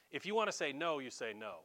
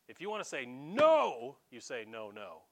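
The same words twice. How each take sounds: First: Said in the usual way. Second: First "no" loud and stretched, then a low doubled "no, no"; emphatic NO. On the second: Shown as a demonstration. Preacher explaining Greek double negatives, first "no" punched loud. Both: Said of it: "that's how you do it".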